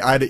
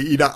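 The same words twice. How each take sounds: First: The name has the usual American pronunciation. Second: The name has a non-American pronunciation. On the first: "over here in America, we see it and we pronounce it Ida. So I say Ida" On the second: "now that I'm trying to reverse it, I'm trying to say Ida"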